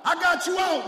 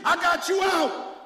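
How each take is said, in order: First: High loud punch on got; a second shouted I got you out. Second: High, loud, slow proclamation; I got you out, preached at a shout. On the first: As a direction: drive the line home again. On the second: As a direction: hammer it home to the church. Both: Acted. Repeated preaching climax.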